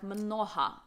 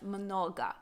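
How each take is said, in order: First: The middle consonant is a breathy h sound. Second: The middle consonant is a hard g sound. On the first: "Ukrainians say their g as a h" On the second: "instead of mnoga"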